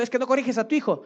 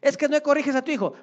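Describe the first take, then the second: First: Fast, high scolding rebuke; preaching rebuke. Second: Higher, louder, fast rebuke; louder preaching rebuke. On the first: Preacher rebuking a lax parent, fast and high. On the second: Preacher repeating his rebuke to a lax parent, louder and higher. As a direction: hammer the rebuke harder. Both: Retold or imitated. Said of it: "estoy predicando y estoy diciendo".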